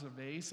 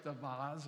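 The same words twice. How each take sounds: First: "vase" pronounced to rhyme with "face"; vase as VAYSS. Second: "vase" pronounced VAHZ, open AH. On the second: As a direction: say "vase" with AH and a final Z. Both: Shown as a demonstration. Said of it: "depending on where you're from".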